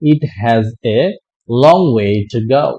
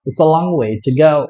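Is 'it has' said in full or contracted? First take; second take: full; contracted. First: It is said in full as 'it has'. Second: It is contracted to 'it's'. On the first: "যেমন আমরা বলি" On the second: "সংক্ষেপে আমরা বলে ফেলতে পারি"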